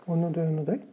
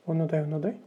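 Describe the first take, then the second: No difference in how they are said.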